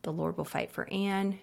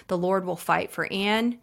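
First: Much softer, hushed breathing prayer; whispered-down prayer for Anne. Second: Said in the usual way. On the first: Shown as a demonstration. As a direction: pray it under your breath for a friend. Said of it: "I breathe out". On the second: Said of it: "I'll just say Anne".

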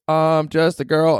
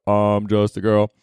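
First: Slow, high take on the singer. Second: Slow echo from the male fans; boys in the crowd. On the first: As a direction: draw it out high like the pop star. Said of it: "So she goes". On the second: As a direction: answer back slowly as the guys in the audience. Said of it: "And then the boys go". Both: Retold or imitated.

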